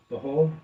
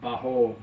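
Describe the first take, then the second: First: "Baho?" asked back with a rising end; "Baho" checked softly with an upward questioning tune; puzzled question. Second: "Baho" said as a flat statement with a falling end; "Baho" sounded out softly with a downward finish. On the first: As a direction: repeat "Baho" as a puzzled query, tone lifting. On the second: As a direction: state "Baho" plainly, letting the tone drop. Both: Shown as a demonstration.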